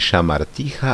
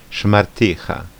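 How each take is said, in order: First: The first vowel is fully pronounced. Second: The first vowel is dropped. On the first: The speaker calls it wrong. "A není šamarticha" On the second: The speaker calls it right. "ale je jenom šmarticha"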